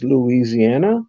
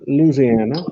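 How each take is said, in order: First: It is said the northern US way. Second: It is said the southern US way.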